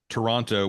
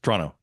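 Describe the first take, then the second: First: It is said with three full syllables. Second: It is said with only two syllables. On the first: The speaker is not local. The speaker calls it wrong. "in a very pronounced way, Toronto with three syllables" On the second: The speaker is local. The speaker calls it right. "it's just Toronto"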